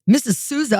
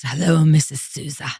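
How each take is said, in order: First: Higher, incredulous retort; taken-aback echo. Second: Lower, smooth imitation of him; husband's phone greeting. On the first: Retold or imitated. Woman answering suitor's phone call, incredulous echo. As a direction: throw the name back, pitched up. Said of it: "And I'm like". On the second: Husband phoning future wife that morning, lowered imitated greeting. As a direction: greet her knowingly, voice dropped. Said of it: "he calls me that morning and he says".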